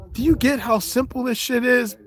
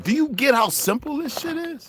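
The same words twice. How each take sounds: First: Much higher, pointed question; rhetorical challenge. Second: Rhetorical challenge. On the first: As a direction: press the audience, voice lifted high. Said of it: "rhetorical challenge to audience". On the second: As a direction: hammer the question home, pitched way up. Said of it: "rhetorical challenge repeated". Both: Real, not acted.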